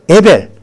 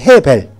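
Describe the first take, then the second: First: The name begins directly with a vowel. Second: The name begins with an h sound.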